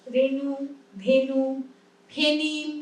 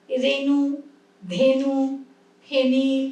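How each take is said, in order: First: রেণু, ধেনু, ফেনিল with a clear e, one by one; এ ধ্বনিতে রেণু ধেনু ফেনিল; e sound. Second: রেণু, ধেনু, ফেনিল with a clear e, one by one; slow, spelled-out e vowel; এ ধ্বনিতে রেণু ধেনু ফেনিল; e sound. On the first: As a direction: model the e vowel for students. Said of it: "একার উচ্চারণ হলো". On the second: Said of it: "এ উচ্চারণ করছি". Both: Shown as a demonstration.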